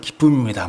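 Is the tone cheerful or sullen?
sullen. It is said sullenly, without a smile.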